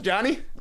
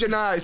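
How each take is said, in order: First: The name ends with an 'ee' sound. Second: The name ends with an 'eye' sound. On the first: The speaker calls it wrong. "I thought for sure Johnny" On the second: The speaker calls it right. "Nope, that's Janai"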